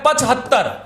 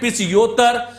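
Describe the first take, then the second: First: Said as pachhattar, with a clear h sound. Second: Said as pichyottar, with a y glide. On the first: The speaker calls it right. "तो ये शब्द बनता है पचहत्तर" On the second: The speaker calls it wrong. "कुछ बोलते हैं पिचयोत्तर"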